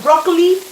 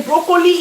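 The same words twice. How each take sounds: First: "broccoli" clipped to two syllables, BROK-lee; "broccoli" squeezed short as the critics want it; the standard broccoli. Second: "broccoli" said as bro-KO-lee, three syllables with a round o; her own broccoli. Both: Shown as a demonstration. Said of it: "the fact that I say broccoli instead of broccoli".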